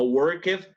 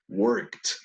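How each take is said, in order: First: The -ed ending is a separate syllable. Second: The -ed ending is a t sound. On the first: The speaker calls it wrong. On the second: The speaker calls it right. "como si fuera una T"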